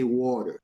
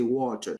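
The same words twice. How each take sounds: First: It is said in an American accent. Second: It is said in a British accent.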